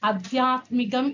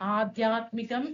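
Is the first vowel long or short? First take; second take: short; long. First: The first vowel is short. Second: The first vowel is long. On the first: The speaker calls it wrong. "തെറ്റാണ്" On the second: The speaker calls it right. "ആ എന്ന് വരണം"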